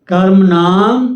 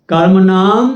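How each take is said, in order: No difference in how they are said.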